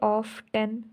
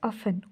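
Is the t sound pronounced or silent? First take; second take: pronounced; silent. First: The t sound is pronounced in the middle. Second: The t sound is left out entirely. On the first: The speaker calls it wrong. "हमें तो इसको ऐसे बोलना चाहिए ऑफ टेन" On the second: The speaker calls it right. "यहाँ पर हम इसको क्या बोलते हैं"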